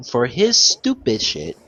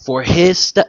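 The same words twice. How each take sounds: First: "stupid shit" drawn out slowly, stressed; slow down and lean on "stupid shit"; slow emphatic. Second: Said in the usual way. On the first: Real, not acted.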